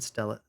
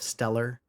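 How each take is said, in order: First: The final r sound is dropped. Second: The final r sound is pronounced. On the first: "when a word ends in er is when the r gets dropped off" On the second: "instead of stellar"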